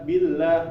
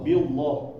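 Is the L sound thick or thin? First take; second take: thin; thick. First: The L is said thin and light. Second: The L is said thick and heavy. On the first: The speaker calls it right. "itu nggak tebal" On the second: The speaker calls it wrong. "membaca billah itu menjadi uh, billah, billah. Nah, itu keliru ya"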